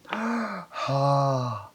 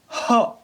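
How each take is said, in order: First: The syllable is said slowly and drawn out. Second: The syllable is said short and clipped. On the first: "천천히 길게요" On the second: "스타카토로도 해봅니다"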